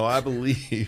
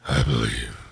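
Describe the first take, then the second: First: It is said in a normal voice. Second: It is said in a gravelly Batman voice.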